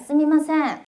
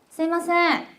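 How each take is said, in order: First: The second syllable has a clear m sound. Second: The second syllable has no m sound.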